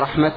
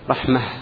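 First: The word ends with a t sound. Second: The word ends with an h sound. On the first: The speaker calls it wrong. "هل أنت تقول رحمة عند الوقف؟" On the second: The speaker calls it right. "رحمة في لغة جمهور العرب"

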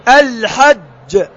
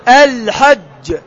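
The two takes are said the same way.

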